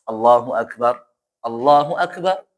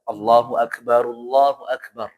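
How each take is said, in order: First: The first Akbar ends in a stop and pause. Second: The first Akbar runs on with a 'u' vowel. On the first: "Tapi kalau berhenti, tidak masalah" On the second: "Kalau pengen nyambung, maka harus pas ya. Maksudnya dhammahnya dibaca"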